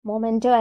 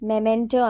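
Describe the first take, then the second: First: The first syllable is said as 'mo'. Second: The first syllable is said as 'meh'. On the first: The speaker calls it wrong. "നമ്മൾ സാധാരണയായിട്ട് മൊമെന്റോ എന്നൊക്കെയാണ് pronounce ചെയ്യാറുള്ളത് അല്ലേ? പക്ഷെ മൊമെന്റോ അല്ല" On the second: The speaker calls it right. "മെമെന്റോ ആണ്"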